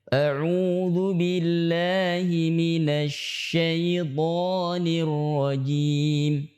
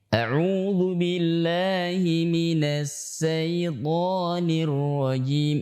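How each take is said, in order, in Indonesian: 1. Bunyi pertama syaiton adalah sh. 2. Bunyi pertama syaiton adalah s biasa. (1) "itu yang benar" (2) "Seringkali dibaca mirip dengan sin. ... Ini keliru"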